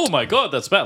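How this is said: It is said in a mildly dramatic way.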